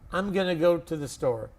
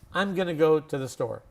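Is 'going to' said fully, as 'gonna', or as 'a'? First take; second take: gonna; gonna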